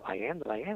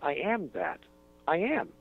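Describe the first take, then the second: First: It is said without a pause after that. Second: There is a pause after that.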